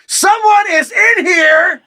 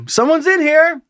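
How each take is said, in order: First: Slow, high-pitched full shout; louder. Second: Polite high call through a door; high-pitched call out. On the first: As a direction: yell it word by word through the door. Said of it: "I say louder". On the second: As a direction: call out that the stall is taken. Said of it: "this is our little exchange". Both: A narrator's reading.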